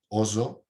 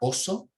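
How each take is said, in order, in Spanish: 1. La s del medio es sonora, como la z. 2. La s del medio es sorda. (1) "con sonora" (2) "el animal era oso, con sorda"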